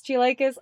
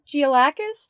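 First: "Giolakis" with a long i, as in "like"; alternative pronunciation. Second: "Giolakis" with a short a, as in "lack"; unsure pronunciation. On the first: Podcast host retrying "Giolakis", unsure, long i as in "like". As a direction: try "Giolakis" as jee-LIKE-iss, questioning. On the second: Podcast host guessing "Giolakis", unsure, short a as in "lack". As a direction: try "Giolakis" as jee-uh-LACK-us, higher and questioning. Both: Real, not acted. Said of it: "I don't know how to pronounce it".

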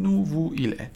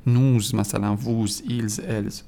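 First: نو، وو، ایل، ال with no z at the end; نو، وو، ایل، ال as separate pronouns, final s unheard; silent final s. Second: نوز، ووز، ایلز، الز each ending in a buzzed z; نوز، ووز slowly, with an audible z at the end; wrong sounded final s. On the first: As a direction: leave the endings bare in نو، وو، ایل، ال. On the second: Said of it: "یعنی ما نمیگیم". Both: Shown as a demonstration.

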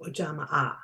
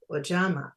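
First: "Ojama A" with an extra, separate "ah" at the end; double A pronounced. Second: Said in the usual way. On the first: Shown as a demonstration. Teacher showing how some people say the Swahili word, double A pronounced in "Ojama A". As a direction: sound both final vowels of "Ojama A". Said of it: "Some people pronounce the double A". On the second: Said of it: "Some people pronounce".

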